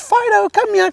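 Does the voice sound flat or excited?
excited. It is said excitedly in a higher-pitched voice.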